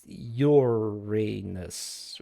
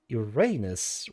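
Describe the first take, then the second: First: The stress is on the first syllable. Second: The stress is on the second syllable. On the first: "with long U of English and stress on the first syllable" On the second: "with stress on the second syllable and a long A"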